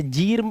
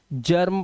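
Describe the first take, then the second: First: जीर्म with a long ee; wrong ee sound. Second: जर्म with a short uh; short a sound. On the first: Teacher showing what goes wrong, जीर्म with a long ee. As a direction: read जीर्म as jeerm. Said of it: "जीर्म पढ़ लें गलत हो जाएगा". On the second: Teacher correcting the reading, जर्म with an uh vowel. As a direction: read जर्म as jurm. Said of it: "जर्म पढ़ना है". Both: Shown as a demonstration.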